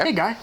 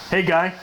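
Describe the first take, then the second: First: It is said in a warm, friendly tone. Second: It is said in a menacing, threatening tone. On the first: The greeting is friendly. "when you have that affable tone in your voice" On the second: The greeting feels like a threat. "It's threatening"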